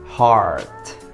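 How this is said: It is said with an American accent. "versi U S itu cara bacanya gini"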